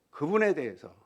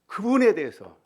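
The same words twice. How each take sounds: First: Said in the usual way. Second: Loud, high stress on 그분에; 그분에 punched loud and high; preaching emphasis. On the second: Real, not acted. Preacher stresses repeated phrase. (그분에를 크고 높게 강조)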